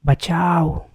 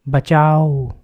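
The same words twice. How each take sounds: First: Terrified cry, higher and louder; first desperate cry for help; scream for help. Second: Final cry for help, much louder; the last desperate scream before silence. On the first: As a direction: shout for help in panic. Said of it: "और एक चीख आती है". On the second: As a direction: scream it with everything left. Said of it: "आखिरी चीख शाम की". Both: A narrator's reading.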